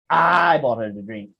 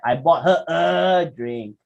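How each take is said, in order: First: The stress falls on the word I. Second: The stress falls on the word a. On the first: It was the speaker, not someone else, who paid. "Siapa yang beli? Who buy?" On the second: Only one drink was bought. "how many drinks did you buy?"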